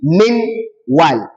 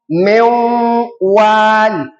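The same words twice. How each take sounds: First: The n is clearly pronounced before the w. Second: The n merges into the w with nasalization. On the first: "That nono sakina will be pronounced clearly" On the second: "inserted into wa ... we are going to do gunna"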